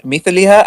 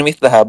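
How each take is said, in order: First: مثلها said mith-li-ha, with an i before the ha; reading with -li-. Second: مثلها said mith-la-ha, with an a before the ha; reading with -la-. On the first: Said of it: "Both of the readings are correct". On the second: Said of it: "other readers who read it as". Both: Shown as a demonstration.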